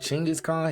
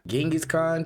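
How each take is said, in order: First: The name is said as Chinggis, like the narrator. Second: The name is said as the familiar English Genghis. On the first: This is how someone else said it. "He said get Chinggis Khan" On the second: This is how the speaker normally says it. "I say Genghis Khan"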